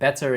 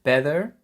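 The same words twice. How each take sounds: First: The t is said as a clear t. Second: The t is said as a glottal stop. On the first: It does not really rhyme with ever. "it doesn't really rhyme that much" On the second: It rhymes with ever. "If you have the glottal stop"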